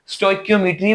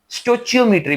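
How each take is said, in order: First: The middle sound is a hard k. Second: The middle sound is a ch. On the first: "स्टोइकियोमेट्री भी इसको बोलते हैं" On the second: "स्टोचियोमेट्री भी बोलते हैं"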